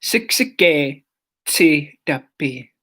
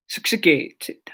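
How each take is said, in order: First: Slow syllable by syllable. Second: Said in the usual way. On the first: Shown as a demonstration. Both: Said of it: "but Siksikaitsitapi".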